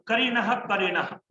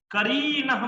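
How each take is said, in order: First: Said in the usual way. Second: "करीणः" with the री dragged out long; over-stressed syllable. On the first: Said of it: "करीणः मत बोलो". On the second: Shown as a demonstration. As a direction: overdo the stress on री in "करीणः", stretching it. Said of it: "ज्यादा बल आघात मत करो". ("करीणः" में री पर ज़्यादा बलाघात, खींचकर)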